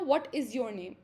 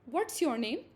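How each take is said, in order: First: "What is" is said as two full words. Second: "What is" is contracted into one syllable. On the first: "व्हाट इज़ होता है basically" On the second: "short form में ज़्यादातर बोला जाता है"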